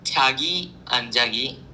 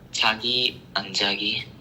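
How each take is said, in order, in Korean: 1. 평범한 말하기 목소리로 말하고 있어요. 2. 일부러 쿨하게 들리는 목소리로 말하고 있어요.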